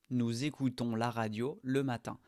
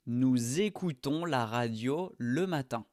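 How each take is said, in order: First: Said in the usual way. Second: Nous écoutons with the z sound joined, nuz-écoutons; teacher showing the liaison in nous écoutons. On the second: Shown as a demonstration. Model sentence linking z into écoutons. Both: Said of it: "On fait la liaison ici".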